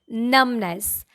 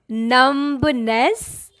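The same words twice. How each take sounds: First: The middle B is silent. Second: The middle B is sounded. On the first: The speaker calls it right. "mid B is silent here" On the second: The speaker calls it wrong.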